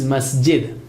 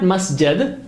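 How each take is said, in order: First: The second syllable has an 'i' vowel. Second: The second syllable has an 'a' vowel. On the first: The speaker calls it right. "it is masjid" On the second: The speaker calls it wrong. "it is not masjid like makhraj"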